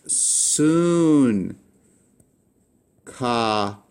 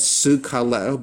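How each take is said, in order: First: The first gamma is said as an n sound. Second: The first gamma is said as a g sound. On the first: The speaker calls it right. "You would pronounce this as soon kaleo" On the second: The speaker calls it wrong. "Wouldn't you pronounce this as sugkaleo? But you don't"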